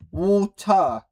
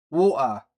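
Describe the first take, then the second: First: "Water" with the middle T sounded out. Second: "Water" with the middle T left out. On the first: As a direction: hit the T in "Water". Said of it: "That's how you say it". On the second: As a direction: drop the T in "Water". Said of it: "With no T". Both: Shown as a demonstration.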